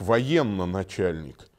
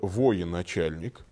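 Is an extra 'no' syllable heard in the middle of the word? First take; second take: yes; no. First: An extra no syllable is heard mid-word. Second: No extra syllable is heard mid-word. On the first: The speaker calls it wrong. "очень многие неправильно произносят" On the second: The speaker calls it right. "На самом деле это"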